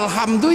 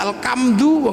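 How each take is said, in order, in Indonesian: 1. Konsonan tengahnya bunyi h yang berdesah. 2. Konsonan tengahnya bunyi k yang keras.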